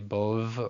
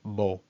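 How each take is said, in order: First: It ends with a V sound. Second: It ends on a plain O vowel. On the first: The speaker calls it wrong. "Don't I say Bov ... No, you don't pronounce the Vav" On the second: The speaker calls it right. "This would be pronounced just Bo"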